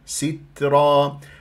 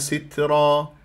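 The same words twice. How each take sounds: First: The first vowel is fully pronounced. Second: The first vowel is clipped and barely heard. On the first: The speaker calls it right. "لازم أنا أجيب الكسرة، ما أختلسها" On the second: The speaker calls it wrong. "من دونها ... هذا اختلاس للكسرة"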